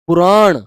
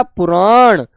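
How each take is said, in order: First: पुराण with a clear retroflex ण at the end, said plainly; correct pronunciation. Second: पुराण with a clear retroflex ण at the end; correct pronunciation. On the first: Teacher models पुराण for students, a clean retroflex ending. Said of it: "पुराण बोला जाता है". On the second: Teacher repeats पुराण for the class, crisp ending. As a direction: finish पुराण on a firm retroflex ण. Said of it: "पुराण कहेंगे बेटा". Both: Shown as a demonstration.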